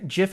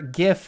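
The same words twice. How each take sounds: First: The word begins with a soft J sound. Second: The word begins with a hard G sound. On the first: It names the peanut butter brand. The speaker calls it wrong. "GIF is the peanut butter" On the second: It names the moving image format. The speaker calls it right. "GIF is the funny moving image thing that you can share on the internet"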